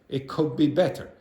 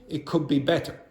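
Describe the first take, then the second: Both takes have the same delivery.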